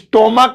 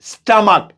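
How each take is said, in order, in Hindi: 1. पहला स्वर 'oh' जैसा बोला जाता है। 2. पहला स्वर 'uh' जैसा बोला जाता है। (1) "स्टोमक या स्टोमच नहीं" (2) "स्टमक स्टमक ऐसे"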